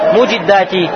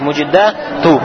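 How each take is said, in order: First: The word ends with an 'i' vowel. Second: The word ends with a 'u' vowel. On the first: The speaker calls it wrong. "Правильно или нет?" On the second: The speaker calls it right. "Даммы на конце"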